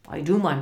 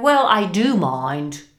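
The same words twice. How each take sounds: First: Said in the usual way. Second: Loud, indignant boss; forceful, displeased reply; annoyed retort. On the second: A narrator's reading. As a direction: push back hard at your clerk. Scrooge snaps back at clerk.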